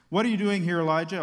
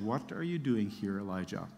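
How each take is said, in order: First: Commanding call. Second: Soft, low and fading, a still small voice; hushed voice of God barely above a breath; gentle whisper voice. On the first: God questions Elijah, booming. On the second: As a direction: let it sink almost to nothing. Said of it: "sound of a gentle whisper". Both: Acted.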